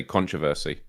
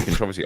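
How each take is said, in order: First: "controversy" as CON-tro-ver-sy; stress on first syllable. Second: "controversy" as con-TROV-ersy; stress on second syllable. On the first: Guest shows how he always says it, CON-troversy. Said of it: "I always say controversy". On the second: Guest shows how some people say it, con-TROV-ersy. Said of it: "I hear some people say". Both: Shown as a demonstration.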